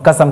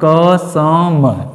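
First: Said in the usual way. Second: "कसम" pulled apart into long, separate syllables; drawn-out mnemonic. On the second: Shown as a demonstration. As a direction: stretch "कसम" slowly, sound by sound. Draws out mnemonic word for students.

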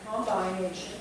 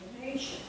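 First: Combination said as "com-BINE-ation"; spelling-style pronunciation. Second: Said in the usual way. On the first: Shown as a demonstration. Teacher shows the unwanted form, combination with a long "bine". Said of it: "I'm not saying combination". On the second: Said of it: "I'm saying combination".

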